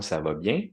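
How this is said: The pitch rises at the end. It is a real question. "mon intonation, elle monte. Ça, c'est une question"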